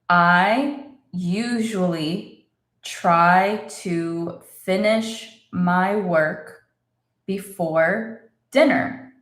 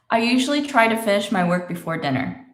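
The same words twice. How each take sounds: First: The sentence is said slowly and deliberately. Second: The sentence is said at a natural, quick pace. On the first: "So let's say it slowly" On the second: "That's how I would say it"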